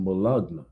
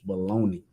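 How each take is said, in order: First: The word is said the way it is spelled. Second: The word is said as 'baloney', ending in 'ee'. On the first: The speaker calls it wrong. "it's not pronounced that way ... that's the way it's spelled on the package" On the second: The speaker calls it right. "the correct way to say it"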